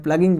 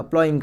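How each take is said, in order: First: प्लगिंग said as plugging, short u and a hard g; his own pronunciation. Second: प्लॉइंग said as plowing, with an ow vowel and no g; correct pronunciation. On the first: Teacher owning up to his habit, saying प्लगिंग as plugging. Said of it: "मैं प्लगिंग बोलता हूँ". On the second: Teacher giving students the proper form of प्लॉइंग, like plowing. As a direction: say प्लॉइंग like English plowing, plough plus ing. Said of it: "वैसे प्लॉइंग होता है". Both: Shown as a demonstration.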